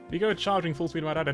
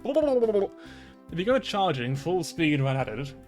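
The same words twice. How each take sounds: First: The sentence is read at a quick pace. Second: The sentence is read at a slower pace.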